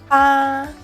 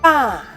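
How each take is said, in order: First: The pitch stays high and level. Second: The pitch falls sharply from high. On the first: "pronounce the first tone to help us define the fourth tone" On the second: "the fourth tone"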